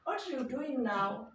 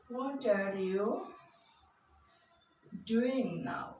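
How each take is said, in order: First: 'Are' is blended into 'what' and nearly vanishes. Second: 'Are' is said as a full separate word.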